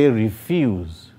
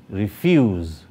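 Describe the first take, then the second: The two takes are said the same way.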